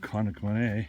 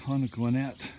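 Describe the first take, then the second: First: The name ends with an 'ay' sound. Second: The name ends with an 'et' sound. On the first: This follows French spelling rules. The speaker calls it wrong. "it's an, an A sound, like Conagwinet" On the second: This is how the locals say it. The speaker calls it right. "That's how they pronounced it"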